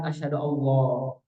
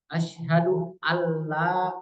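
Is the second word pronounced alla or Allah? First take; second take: Allah; alla. First: The second word is pronounced like 'Allah'. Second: The second word is a short, merged 'alla'. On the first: The speaker calls it wrong. "bukan Allah ya" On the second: The speaker calls it right. "pengucapan syahadat yang benar. Dengar baik-baik"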